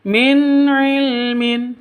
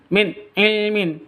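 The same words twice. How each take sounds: First: The n sound is plain and clear. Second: The n sound is cut off abruptly. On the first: The speaker calls it right. "Yang betul, ... Jelas, terang" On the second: The speaker calls it wrong. "tidak boleh disentak"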